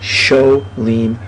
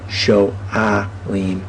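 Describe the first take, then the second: First: The vowels run together with no break. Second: There is a break before the 'a' sound. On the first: The speaker calls it wrong. "We would have lost, per se, the guttural letter" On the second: The speaker calls it right. "the guttural letter loves the ah sound"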